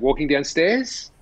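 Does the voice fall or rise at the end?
rise. The voice goes up at the end. It sounds like an Australian question-like ending. The speaker calls it wrong. "as Australians, will say walking downstairs with a question at the end of it like that"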